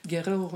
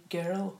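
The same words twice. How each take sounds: First: Put-on "girl" with a strong burr, in two syllables; childhood pronunciation. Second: Put-on "girl" carefully in one syllable; learned pronunciation. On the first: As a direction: roll the R in "girl", adding a vowel before the L. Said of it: "I would like to say". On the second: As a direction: say "girl" with no vowel between R and L. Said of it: "I had to learn to say". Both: Shown as a demonstration.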